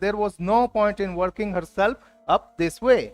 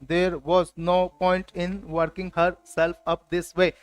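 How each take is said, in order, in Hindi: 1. यह सहज, स्वाभाविक प्रवाह में बोला गया है। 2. यह झटकेदार, मशीनी तरीके से बोला गया है। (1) "नेचुरल फ्लो में बोलना है।" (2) "देखिए रोबोटिक अंदाज आ रहा है ना"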